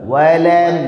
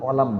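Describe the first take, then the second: First: The word starts with a clear 'w' sound. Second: The word starts with a plain 'o' vowel. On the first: The speaker calls it right. "ওয়া" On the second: The speaker calls it wrong. "অলাম না"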